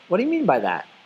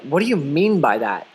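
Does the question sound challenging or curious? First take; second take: curious; challenging. First: The question sounds open and genuinely curious. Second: The question sounds confrontational and challenging. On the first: The listener simply wants clarification. The speaker calls it right. "More of" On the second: The listener is disputing what was said. The speaker calls it wrong. "you don't want to be like"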